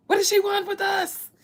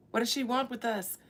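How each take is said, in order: First: High, loud, indignant ancestor spirit; loud mock spirit demanding why she's here; alarmed spirit voice. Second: Said in the usual way. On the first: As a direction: shriek it as an offended spirit. Spirits questioning her presence.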